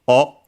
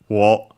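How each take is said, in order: First: It is a bare vowel with no w sound. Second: It begins with a w sound before the vowel. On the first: "the object particle o" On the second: "also pronounced as the wo, as you might hear in careful speech or singing"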